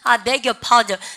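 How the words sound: The pitch falls at the end. The speaker is apologizing. "끝을 내려주십시오"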